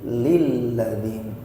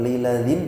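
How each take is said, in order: First: The l sound is doubled and pressed. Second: The l sound is short and single. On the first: The speaker calls it right. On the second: The speaker calls it wrong.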